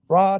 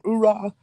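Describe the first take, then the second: First: Only the last syllable of the word is said. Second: The whole word is said with both syllables. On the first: The speaker's enthusiasm has started to fade. "you kind of don't say the whole thing" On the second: The speaker is new and highly motivated. "when you join the Marine Corps, you get motivated"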